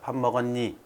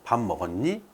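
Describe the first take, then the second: First: The pitch stays flat like a statement. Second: The pitch rises at the end like a question. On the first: Question and statement sound the same. The speaker calls it wrong. "이런 식으로 억양의 차이가 거의 없다" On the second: It is heard as a question. The speaker calls it right. "라고 물어봐야 되는데"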